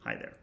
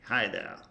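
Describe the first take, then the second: First: Said in the usual way. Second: Light put-on British accent; a touch of British English. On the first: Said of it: "expect the computer to say". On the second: Shown as a demonstration. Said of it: "except in a British accent".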